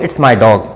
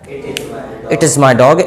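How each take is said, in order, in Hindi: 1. "It is" को एक अक्षर जितना छोटा कर दिया जाता है। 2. "It is" को दो पूरे शब्दों की तरह बोला जाता है।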